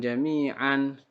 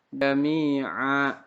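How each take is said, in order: First: The word ends with an n sound. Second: The word ends on a long vowel, no n. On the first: The speaker calls it wrong. "jangan jami'an" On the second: The speaker calls it right. "tapi dibaca mad tabi'i"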